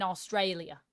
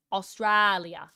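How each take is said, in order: First: "Australia" with an ay in the middle; stressed middle of "Australia" said as "stray"; ay vowel. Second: Slow "Australia" with a broad, flattened middle vowel; drawn-out "straa" in "Australia"; open ah vowel. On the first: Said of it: "this is how I say an ah". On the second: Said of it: "this is how I say an ah in Australia". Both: Shown as a demonstration.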